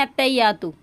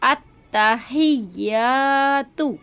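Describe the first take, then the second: First: अत्तहियातु run together with a weak त, at talking pace; the common mistake: अत्तहियातु said lightly; wrong way. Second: अत्तहियातु very slow, the doubled त clearly held; correct recitation. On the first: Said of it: "इस तरह से पढ़ती हैं". (गलत तरीका, बिना तशदीद) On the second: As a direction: recite अत्तहियातु the right way, drawn out. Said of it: "आपको ये बिल्कुल सही तरीके से पढ़ना है". (सही तरीका, तशदीद के साथ धीरे) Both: Shown as a demonstration.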